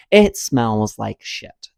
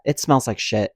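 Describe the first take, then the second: First: "smells like shit" slowly drawn out word by word; emphatic repeat. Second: Said in the usual way. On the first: Real, not acted. Storyteller summing up the hated airport, slow emphatic verdict. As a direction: stretch "smells" and land firmly on "shit".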